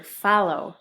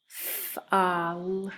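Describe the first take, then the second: First: Said in the usual way. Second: F-a-l-o with a long f, "ah", held l, then "oh"; F-a-l-o in stretched separate sounds; sounding out. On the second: Shown as a demonstration. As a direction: sound out F-a-l-o slowly. Teacher sounds out word for spelling.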